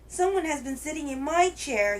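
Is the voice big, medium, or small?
small. It is said in a wee little voice.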